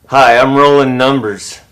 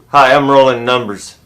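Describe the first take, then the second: Both takes have the same delivery.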